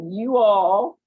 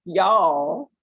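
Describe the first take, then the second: First: YOU ALL said as two full words, drawn out; two separate words. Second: Y'ALL run into one syllable, loud; contracted Southern form. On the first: Teacher showing regional speech, "You all" as two drawn-out words. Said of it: "The way we speak, right?". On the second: Teacher showing regional speech, "y'all" as one loud syllable. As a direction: merge it into a single stretched "y'all". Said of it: "That's three different things". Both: Shown as a demonstration.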